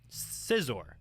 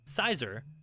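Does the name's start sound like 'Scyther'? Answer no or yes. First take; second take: no; yes. First: The start does not sound like Scyther. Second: The start sounds like the name Scyther. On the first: "is what I call him" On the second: "because he comes from Scyther"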